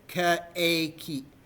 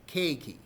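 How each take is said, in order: First: The e and i are said as separate vowels. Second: The e and i blend into one vowel. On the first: The speaker calls it wrong. "The E I isn't pronounced as separate vowels. You don't go and say keiki" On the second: The speaker calls it right. "It's pronounced as A. It's keiki"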